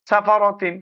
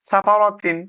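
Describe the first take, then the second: No difference in how they are said.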